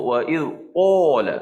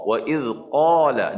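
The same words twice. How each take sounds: First: "qala" over-thick, whole tongue raised; qaf terlalu tebal. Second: "qala" with only the tongue root raised; qaf yang betul. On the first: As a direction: overdo the qaf in "qala", heavy and rounded. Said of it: "Jangan sebut". (sebutan "qala" salah, terlalu tebal) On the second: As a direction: say "qala" with a lighter, unrounded qaf. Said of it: "Jadi bila kita sebut huruf qaf". (sebutan "qala" betul, pangkal lidah sahaja naik) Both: Shown as a demonstration.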